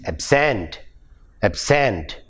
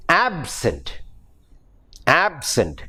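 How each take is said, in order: First: Ab-SENT, weight on SENT; second-syllable stress. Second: AB-sent, weight on AB; first-syllable stress. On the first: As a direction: verb "absent" with a full second vowel. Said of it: "when it becomes a verb". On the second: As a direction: adjective "absent" with a reduced second syllable. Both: Shown as a demonstration.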